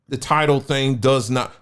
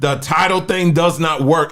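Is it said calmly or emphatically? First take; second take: calmly; emphatically. First: It is said calmly, without extra force. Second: It is said emphatically, with extra force.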